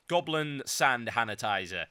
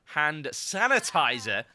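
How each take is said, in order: First: 把"hand"说成"sand"的口误; 口误说成 sand sanitizer; spoonerism. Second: 纠正为"Hand sanitizer"，h 音清楚; 慢慢念对 Hand sanitizer; corrected. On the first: Real, not acted. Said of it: "That is a spoonerism of the century". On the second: Shown as a demonstration. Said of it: "That is a spoonerism".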